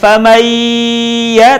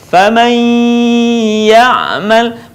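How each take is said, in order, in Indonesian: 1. Bunyinya tidak ditahan dan tidak keluar lewat hidung. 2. Bunyinya ditahan dan sebagian keluar lewat hidung. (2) "Contoh dalam kalimat"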